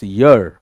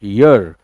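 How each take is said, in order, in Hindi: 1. शब्द एक साफ़ y ध्वनि से शुरू होता है। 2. शब्द एक साफ़ y ध्वनि से शुरू होता है।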